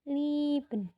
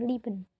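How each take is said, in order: First: The first vowel is long. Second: The first vowel is short. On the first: The speaker calls it right. "tapi liben, dipanjangin" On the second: The speaker calls it wrong. "bukan liben"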